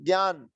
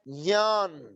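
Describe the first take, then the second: First: The opening cluster is said as g plus y. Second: The opening cluster is said as j plus ny. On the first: The speaker calls it wrong. "जनपद शब्द के हिसाब से इसको लोग बोलते हैं" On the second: The speaker calls it right. "चवर्ग का तीसरे अक्षर से मिलकर ये शब्द बनता है"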